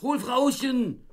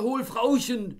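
First: Very high, loud, slow and drawn out; slow drawn-out shout. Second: Very high, loud order; frantic shout. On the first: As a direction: stretch out each word of the order. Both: Acted. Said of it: "fürchterliche Drohungen herabstieß".

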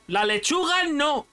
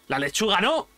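First: Lechuga said higher and slower; slow down and hit lechuga; emphatic repeat. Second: Said in the usual way. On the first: Real, not acted. Emphatic repeat rejecting lettuce.

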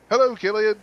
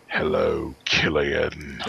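First: Said in the usual way. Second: Low, sinister villain voice, lower pitch; slow and menacing, like a horror icon greeting a fan; the actor slipping into his horror-villain voice for a kid; imitating Pinhead. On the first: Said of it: "just starts talking his normal voice". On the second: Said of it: "Greetings from hell".

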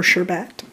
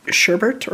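First: "Sherbet" as SHUR-bet, no second R; alternative pronunciation. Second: "Sherbet" as SHUR-burt, with an added R; own pronunciation. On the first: Vlogger offering the other version, "Sherbet" as SHUR-bet. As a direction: end "Sherbet" in a clear "bet". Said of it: "a lot of people pronounce it as". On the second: Vlogger naming the scent their way, "Sherbet" as SHUR-burt. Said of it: "I pronounce it as sherbet". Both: Shown as a demonstration.

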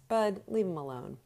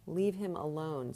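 First: Firm order. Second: Worn-out manager repeating himself, tired; weary. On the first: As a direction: cut Bud off firmly. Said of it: "said Donatelli". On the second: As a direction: let it sag with exhaustion. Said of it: "He looked very tired". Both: A narrator's reading.

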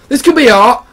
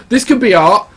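First: Insistent repeat. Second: Said in the usual way. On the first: Pretend.

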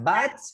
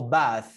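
First: BAT closed on a t; contrasting final T. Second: BATH ending on th; contrasting final TH. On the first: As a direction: offer "Bat" as the t-ending choice. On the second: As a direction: offer "bath" as the th-ending choice. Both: Shown as a demonstration. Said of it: "What is that?".

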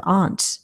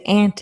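First: "aunt" said with a broad ah, "ahnt"; ahnt pronunciation. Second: "aunt" said like the insect "ant"; ant pronunciation. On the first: Host contrasting names for mother's sister, "aunt" said as "ahnt". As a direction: say "aunt" to rhyme with "font". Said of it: "an aunt is a person". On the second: Host reading a chat comment on mother's sister, "aunt" said as "ant". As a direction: say "aunt" with the short a of "cat". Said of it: "I say aunt instead of aunt". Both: Shown as a demonstration.

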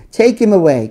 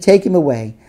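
First: The repeat louder and higher, pushing harder; shouted louder. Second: A firm, moderately raised crowd cry; shouted. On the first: Crowd repeating its demand to Pilate, louder and higher shout. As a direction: push it up as the crowd grows fiercer. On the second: Crowd shouting at Pilate to take Jesus away, moderately raised. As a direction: call it out as the start of the crowd's demand. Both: A narrator's reading. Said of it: "But they shouted".

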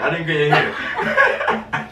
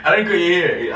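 First: Stretched slow, laughing tease; slow teasing laugh. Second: Laughing through the confession; laughing reveal. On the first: Boyfriend teases girlfriend after prank, slow laughing drawl. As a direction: drag it out to rub it in. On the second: Boyfriend reveals prank to girlfriend, laughing. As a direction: giggle out the truth. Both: Real, not acted.

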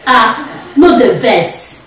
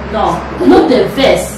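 First: Ah no the verse, slowly; slow demo phrase. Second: No no the verse said slowly; slow it right down; carefully slow correction; slow and deliberate. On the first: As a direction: draw it out. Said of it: "okay, say". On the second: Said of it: "slow, slow". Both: Shown as a demonstration.

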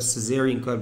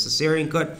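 First: "cesarean" with a buzzed z in the middle; others' pronunciation. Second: "cesarean" with an s sound in the middle; own pronunciation. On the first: Teacher showing students how some people say it, "cesarean" with a z sound. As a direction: say "cesarean" as suh-ZAIR-ee-un. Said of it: "some people pronounce that". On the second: Teacher showing students his preferred way, "cesarean" with an s sound. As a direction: say "cesarean" as suh-SAIR-ee-un. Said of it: "but I pronounce it as". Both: Shown as a demonstration.

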